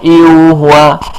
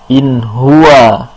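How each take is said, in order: First: A vowel sound replaces the n before huwa. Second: A clear n sound is heard before huwa. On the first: The speaker calls it wrong. "bukan iu huwa" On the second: The speaker calls it right. "dibacanya jelas nun sukunnya"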